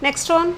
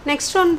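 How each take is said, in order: Both takes have the same delivery.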